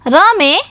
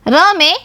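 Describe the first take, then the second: No difference in how they are said.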